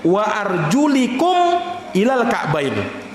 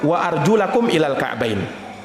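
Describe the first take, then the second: First: The vowel after the L is i. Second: The vowel after the L is a. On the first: It refers to wiping over leather socks. "dengan mengkasrah huruf lamnya" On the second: The feet must be washed. "bacaan yang benar"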